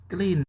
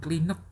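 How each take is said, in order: First: It ends cleanly on the n sound. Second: An extra vowel and hard t end it. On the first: The speaker calls it right. "nutnya jangan keras-keras" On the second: The speaker calls it wrong. "Bacanya jangan klinet ya"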